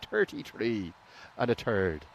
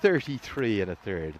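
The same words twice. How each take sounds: First: It is said in an imitated, put-on accent. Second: It is said in the speaker's standard accent. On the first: This imitates someone else's pronunciation. "I can do the impression if you want" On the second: This is the speaker's own pronunciation. "That's the way I would pronounce it correctly"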